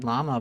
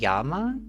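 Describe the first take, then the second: First: The word begins with an L sound. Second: The word begins with a Y sound. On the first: This is the English way to say it. "in English we say llama" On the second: This is the Spanish way to say it. "do people in Spanish say llama?"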